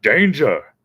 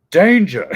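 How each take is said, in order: First: Louder mock alarm call of Danger!; a first, milder Danger! before the big one; warning shout. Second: Higher, louder hammed-up shout of Danger!; the bigger second Danger! that tops the first; alarm shout. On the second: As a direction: bellow Danger! like a blaring alarm. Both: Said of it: "the speaker would be like".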